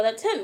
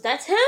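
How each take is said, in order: First: "That's him" as a plain statement; matter-of-fact confirmation. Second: "That's him" rising as a question; incredulous rise on "him"; questioning disbelief. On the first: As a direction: say "That's him" level and settled, no question. Teller confirms to friend. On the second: Friend asks in disbelief. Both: Retold or imitated.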